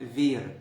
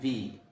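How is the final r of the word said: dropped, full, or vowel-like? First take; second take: full; dropped. First: The word ends with a clear r sound. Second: The word ends on the vowel with no r. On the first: "في الأول خالص أول ما بتتعلم لغة" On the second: "لما بيجوا يتكلموا بسرعة بينطقوا في"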